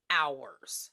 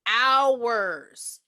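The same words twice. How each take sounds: First: "hours." dropped low with a falling end; low emphasis. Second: "Hours." stretched long and louder; long, loud, falling "Hours."; drawn-out emphasis. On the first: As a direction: set "hours." down low after a short pause. First take, then repeated for emphasis. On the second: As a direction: repeat "Hours." forcefully, dragging it out. Repeats the word more emphatically. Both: Real, not acted.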